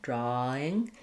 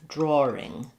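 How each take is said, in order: First: The vowel runs straight into -ing, no R. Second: An R sound is inserted before -ing. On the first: "We're going to just have drawing with nothing between the ah and the ing" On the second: "But in British English, they may say that more like drawing"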